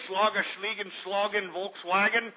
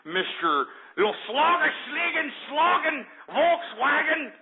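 First: Offhand mock-German jabber; mock German gibberish. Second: High, slow, drawn-out mock German; mock German name. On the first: Host needles German caller about his country, mocking. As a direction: toss out fake German words as a jibe. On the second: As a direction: stretch out each fake German word derisively.

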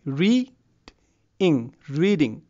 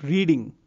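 First: "reading" broken into "read" and "ing", long pause between; syllable by syllable. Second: Said in the usual way. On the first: Shown as a demonstration. Teacher showing two syllables in reading, split apart. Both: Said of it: "reading has two syllables".

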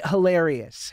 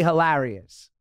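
First: "hilarious" with an "air" vowel in the middle; standard pronunciation. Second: "hilarious" with a flat short a, hi-LARR-ee-us; alternative pronunciation. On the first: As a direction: say "hilarious" as hi-LAIR-ee-us. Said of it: "How would you say that?". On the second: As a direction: say "hilarious" with the vowel of "cat". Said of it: "so you don't wanna say hilarious". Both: Shown as a demonstration.

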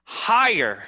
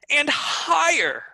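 First: Louder lift on the word; first step up, louder; higher. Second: High, loud, stretched word; soaring pitch, drawn out and loud; even higher. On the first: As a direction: raise it a step. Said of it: "go louder". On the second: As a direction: climb way up and hold it. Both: Shown as a demonstration.

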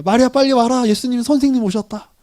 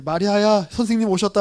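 First: Louder, higher call across the house. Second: Said in the usual way. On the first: Retold or imitated. Martha calling her sister Mary to come, raised call.

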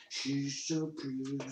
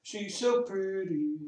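First: Put-on voice. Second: Higher sing-song. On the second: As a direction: gush it up high like to a pet. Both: Shown as a demonstration. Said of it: "repeats the phrase in different voices".

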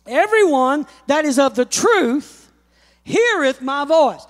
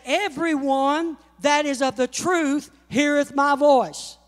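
First: Louder, each word leaned on; emphatic repeat. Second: Said in the usual way. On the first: Shown as a demonstration. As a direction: hammer the verse home the second time. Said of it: "repeats the verse". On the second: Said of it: "repeats the verse louder".

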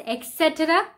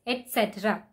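First: Et cetera said as ek-setera. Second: Et cetera as et-setera, no k. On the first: Teacher showing the wrong et cetera. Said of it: "Many people tend to pronounce it as". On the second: Teacher modelling et cetera. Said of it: "not include the X". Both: Shown as a demonstration.

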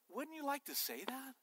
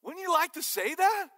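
First: Soft, rising question, pitched up; hushed question. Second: Loud, high-pitched repeat of the question; emphatic question. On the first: Preacher puts a question to the congregation, softly. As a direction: ask it softly, well below full voice. Asks congregation, then repeats it louder. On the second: Preacher presses the congregation for an answer, loud and emphatic. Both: Real, not acted.

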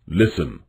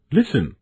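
First: Low, calm stag voice; low, sober instruction; grave warning. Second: Mildly excited, higher voice; a touch of eager excitement, pitched up; high, eager exclamation without shouting; excited cry. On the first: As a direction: caution him in a lowered voice. Stag warns Bambi, against Bambi's cry. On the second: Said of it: "Bambi cried excitedly". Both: A narrator's reading.

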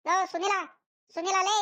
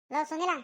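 First: Higher, louder calls for a friend; a loud call to Sunil, higher pitched. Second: A mild call across to a friend; a mild call to Sunil. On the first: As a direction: shout his name across the street. Calling loudly for Sunil. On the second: Calling for Sunil. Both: Acted.

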